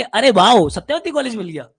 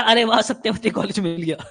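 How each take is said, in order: First: Sarcastic. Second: Said in the usual way. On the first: Shown as a demonstration. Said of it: "नहीं, इसको ऐसे बोलेंगे". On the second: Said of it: "हर्ष कह रहा".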